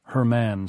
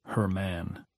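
First: Said in the usual way. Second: Much softer, lower murmur of the phrase; softly musing. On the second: A narrator's reading. Wife in the dark murmurs the phrase softly to herself. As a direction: savour the words to herself.

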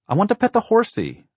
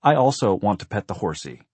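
First: Put-on very high, loud small child's voice; eager little boy. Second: Put-on louder, mildly grand child's announcement; haughty lady-of-the-manor. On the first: Little Blake begs to pet the horsey, high and eager. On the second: Sister echoes her brother's wish, haughtily grand. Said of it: "in the haughty, lady of the manor tone of voice". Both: A narrator's reading.

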